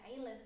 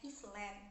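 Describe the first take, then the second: First: One letter of the word is left silent. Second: Every letter of the word is sounded. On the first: The speaker calls it right. "sebenarnya itu dibaca island" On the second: The speaker calls it wrong. "mereka itu membacanya island ... membaca setiap hurufnya"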